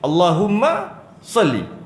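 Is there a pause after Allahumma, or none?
pause. There is a short stop after Allahumma. The speaker calls it right. "sebab apa saya berhenti?"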